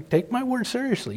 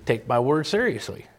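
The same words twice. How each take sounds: First: "word" punched, pitched higher in "Take my word seriously"; stressed repeat. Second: Said in the usual way. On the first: Shown as a demonstration. Preacher pressing the congregation, "word" hit high and strong. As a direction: lift the voice high and land hard on "word". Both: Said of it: "That's the first thing".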